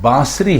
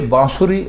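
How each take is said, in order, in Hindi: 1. 's' ध्वनि के बाद 'u' स्वर नहीं आता है। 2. 's' ध्वनि के बाद 'u' स्वर आता है। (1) "सीन के ऊपर कोई पेश नहीं है" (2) "तो ये बांसुरी गलत है"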